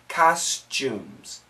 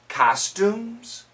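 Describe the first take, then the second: First: The ending is said with a ch sound. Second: The ending is said with a plain t sound.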